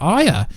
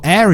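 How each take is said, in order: First: The name is said without an American accent. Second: The name is said with an American accent.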